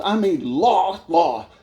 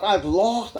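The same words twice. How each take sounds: First: "lost" drawn out slowly and repeated; stress on "lost". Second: Said in the usual way. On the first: Real, not acted. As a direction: lean hard and long on "lost". Repeats the word for emphasis.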